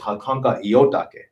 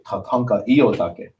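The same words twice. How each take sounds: First: The stress in iotake is off the first syllable. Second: The stress in iotake is on the first syllable. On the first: The speaker calls it wrong. "I said it wrong" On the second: The speaker calls it right. "the correct way was to stress that first syllable"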